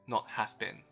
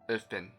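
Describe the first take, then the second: First: The vowel in 'have' is a full vowel. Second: The vowel in 'have' is a weak schwa. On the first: The speaker calls it wrong. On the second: The speaker calls it right. "I replaced a in have with the schwa sound"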